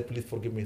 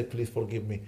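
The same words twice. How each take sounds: First: Low, soft plea while embracing; hushed, humble apology; softly begging forgiveness. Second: Low, soft plea for forgiveness; hushed, humble apology; softly begging forgiveness. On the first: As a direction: ask the father's pardon quietly. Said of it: "Embrace their father and say". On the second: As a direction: beg forgiveness gently at a mother's feet. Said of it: "Hold the feet of their mother and say". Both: Retold or imitated.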